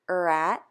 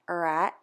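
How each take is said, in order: The two takes are said the same way.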